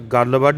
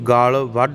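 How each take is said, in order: First: The first word has a short vowel. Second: The first word has a long vowel. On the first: The speaker calls it wrong. "ਗੱਲ ਵੱਢ ਨਹੀਂ ਕਹਿਣਾ" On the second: The speaker calls it right. "ਇਹਨੂੰ ਗਾਲ ਵੱਢ ਕਹਿਣਾ"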